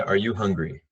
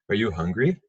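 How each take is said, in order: First: "Are you hungry?" said with the voice falling at the end, like a statement; falling question tune. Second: "Are you hungry?" with the pitch lifting on "hungry" at the end; rising question tune. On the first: Teacher demonstrating the wrong way to students, falling tune. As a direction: drop the pitch on "hungry". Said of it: "Mas eu não falaria". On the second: Teacher showing students the right way, rising tune. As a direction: let "hungry" climb upward like a real yes-no question. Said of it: "Eu falaria". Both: Shown as a demonstration.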